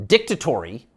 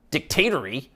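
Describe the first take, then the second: First: "dictatory" said dik-tuh-TOR-ee; DICTATORY stressed on TOR. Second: "dictatory" said dik-TAY-ter-ee; DICTATORY stressed on TATE. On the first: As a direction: rhyme the end of "dictatory" with "story". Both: Real, not acted. Tries two pronunciations of coined word.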